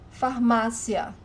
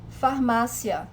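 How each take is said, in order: First: Farmácia said slowly, MÁ stressed. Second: Farmácia with stress on the second syllable MÁ. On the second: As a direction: hit MÁ in Farmácia. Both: Shown as a demonstration. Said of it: "the stronger syllable is not at the end".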